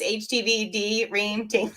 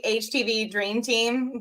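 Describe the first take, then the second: First: "D Ream" split as the letter D, then "Ream"; misread as D Ream. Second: Said in the usual way. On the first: Shown as a demonstration. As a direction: break "Dream" into "Dee" and "Ream". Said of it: "but it's H T V D Ream Team". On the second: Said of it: "I think it's supposed to be".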